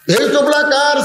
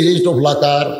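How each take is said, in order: First: High, ringing challenge; acted indignant question, pitched right up; accusing demand. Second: Said in the usual way. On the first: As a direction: demand an answer in a high preacher's cry. Accuser repeats question, much higher.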